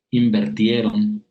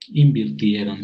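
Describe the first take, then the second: First: Invirtieron said as inver-tieron, with e, slowly; the incorrect invertieron, slow, e in the second syllable; mispronounced Invirtieron with e; wrong form invertieron. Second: Invirtieron with a clear i, in-vir-tie-ron; correct invirtieron. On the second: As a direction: say invirtieron properly, vir not ver. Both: Shown as a demonstration. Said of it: "se dice".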